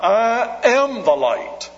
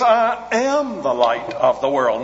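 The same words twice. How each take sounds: First: "am" lifted high and slow in "I am the light."; slow, land hard on "am"; stress on AM. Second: "I" leads, "I am the light of the world" falling at the end; weight on "I" to open the claim; stress on I. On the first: Preacher contrasting "point to" and "bring" with "am", slow stress on "am". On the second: Preacher quoting Jesus to the congregation, weight on "I". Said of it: "Not, "I point you to the light". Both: Shown as a demonstration.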